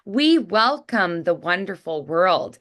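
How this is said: It has an American accent with wide, smiley lips.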